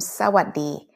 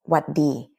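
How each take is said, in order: First: The greeting is said in its full form. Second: The greeting is said in a shortened form. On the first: It is the standard greeting. "it came from สวัสดี" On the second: It is an informal greeting. "we kind of shorten it to สวัสดี"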